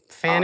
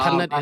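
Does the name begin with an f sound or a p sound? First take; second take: f; p. First: The name begins with an f sound. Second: The name begins with a p sound. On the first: This is how others misread the spelling. The speaker calls it wrong. "they they could never get it right" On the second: This is how the name is said in Khmer. The speaker calls it right. "how you s- pronounce it in Khmer"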